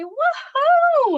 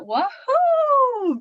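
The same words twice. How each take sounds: First: "Woohoo" drawn out slowly, much higher and louder; lots of emphasis. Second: "Woohoo" with a long held O, much higher and louder. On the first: Showing parents how to read big letters, "Woohoo" stretched, loud and high. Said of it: "say it with a lot of emphasis". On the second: Showing how to read fun words, "Woohoo" with a long, loud O. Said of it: "Really make that O long". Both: Shown as a demonstration.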